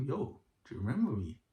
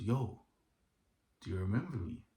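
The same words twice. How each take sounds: First: Imitating his smiling greeting, pitched higher; smiling menace. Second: Said in the usual way. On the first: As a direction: say it through a smile, higher, mimicking him. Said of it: "he did a smile like that". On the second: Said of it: "And he goes".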